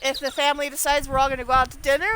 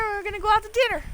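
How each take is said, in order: First: Said in the usual way. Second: "out" lifted and leaned on, the whole line higher; insist: we're gonna go "out" to dinner; stress on out. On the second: Shown as a demonstration.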